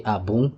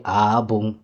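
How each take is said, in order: First: Abung with a rising tune; good stress. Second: Abung louder and level; Abung, weighty, meaning bad; not-good stress. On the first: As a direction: lift Abung at the end. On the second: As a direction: press Abung flat and heavy. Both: Shown as a demonstration. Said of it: "But if I say".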